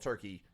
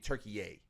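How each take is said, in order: First: The name is said the older English way. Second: The name is said the newer local way. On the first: This is the old name. "the country that we used to call Turkey" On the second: This is the current name. "It's it's supposed to be Turkey, is how people pronounce it now"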